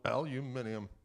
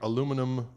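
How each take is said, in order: First: It is said the way other regions pronounce it. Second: It is said in the speaker's own usual pronunciation.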